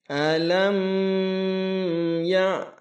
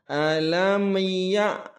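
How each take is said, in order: First: The m is held for a long time. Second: The m is bounced with an echoing release. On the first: "jangan dibaca"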